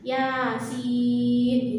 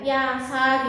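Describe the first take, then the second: First: The second letter is a long, held 'siin'. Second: The second letter is a short syllable 'sa'. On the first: The speaker calls it right. "Jadi sinnya itu enam ketukan" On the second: The speaker calls it wrong. "Ada yang ya sa gitu ya, tetapi kan salah ya"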